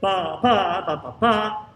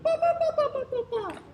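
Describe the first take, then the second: First: Punched BA on the accented beats; rhythmic BA syllables with strong accents. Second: Very high, light sung BA syllables; sung, other part's line. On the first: Director shows seconds the accent, hitting BA hard on strong beats. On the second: Director imitates what the other singers are going, high even sung BA. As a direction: sing quick, even BA notes far up high. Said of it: "'Cause they're going ba". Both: Shown as a demonstration.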